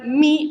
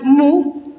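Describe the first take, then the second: First: The vowel is a plain 'ee' sound. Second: The vowel is a plain 'oo' sound. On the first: This is the simplified Spanish way of naming the letter. "yo les voy a nombrar mi a esta" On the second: This is how mathematicians name the letter. "otros lo pronuncian mu"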